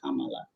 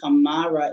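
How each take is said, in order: First: It is said with an L sound. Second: It is said with an R sound. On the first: This is the traditional form. "we don't actually pronounce the R traditionally" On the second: This is the anglicized form. "as we anglicize our speech"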